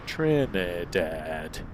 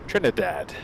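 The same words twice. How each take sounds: First: The word is said slowly and carefully. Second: The word is said at a normal pace. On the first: The speaker calls it right. "If I talk really slow, I can say everything" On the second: The speaker calls it wrong. "I can't say properly"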